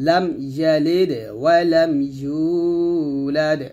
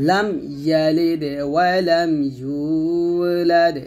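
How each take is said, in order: Both takes have the same delivery.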